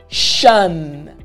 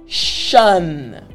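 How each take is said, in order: The two takes are said the same way.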